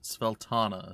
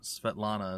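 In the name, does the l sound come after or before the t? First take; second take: before; after. First: The l sound comes before the t sound. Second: The l sound comes after the t sound. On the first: This is how others in the game say it. The speaker calls it wrong. "as they call it" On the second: This is how the name should really be. The speaker calls it right. "as it should actually be"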